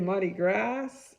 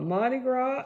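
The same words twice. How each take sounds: First: The final S of Gras is pronounced. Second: The final S of Gras is silent. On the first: The speaker calls it wrong. "that's wrong" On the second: The speaker calls it right. "you do not pronounce that S"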